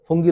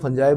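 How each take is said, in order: First: The word is said with a hard g, ending in 'ee'. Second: The word is said with a soft j, ending in 'eye'. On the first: This is how local speakers say it. "और हम लोग क्या बोलते हैं" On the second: This is how English speakers say it. "अंग्रेज जो है वो फंजाई बोलते हैं उसको"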